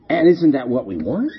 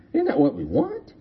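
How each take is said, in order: First: Said in the usual way. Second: "Isn't" lifted high and said softly as a question; high soft repeat. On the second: Shown as a demonstration. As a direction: ask "Isn't that what we want?" again, much higher and quieter.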